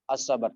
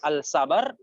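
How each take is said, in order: First: The article blends into the next sound as 'as'. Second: The article is said fully as 'al'. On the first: The speaker calls it right. "tapi as, ya betul" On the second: The speaker calls it wrong. "jangan dibaca"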